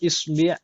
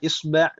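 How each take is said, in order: First: The vowel before the final sound is i. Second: The vowel before the final sound is a. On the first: "bisa dibaca dengan berbagai harokat" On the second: "bisa dibaca dengan berbagai harokat"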